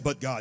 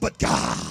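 First: It is said plainly, without a rattle. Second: It is said intensely, with a rattle. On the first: The speaker calls it wrong. "you can't just say" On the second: The speaker calls it right. "You got to say, ... Put a little rattle in your voice"

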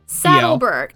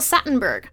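First: The middle syllable is said with D and L. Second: The middle syllable is said with T and N. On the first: The speaker calls it right. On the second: The speaker calls it wrong. "still got it wrong"

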